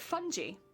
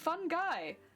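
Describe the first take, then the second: First: The ending does not sound like 'guy'. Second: The ending sounds like the word 'guy'. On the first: This is how the documentary pronounced it. The speaker calls it wrong. "They were pronouncing it fungi" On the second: This is the pronunciation the speaker has always used. The speaker calls it right. "We have so many puns around it being fun guy"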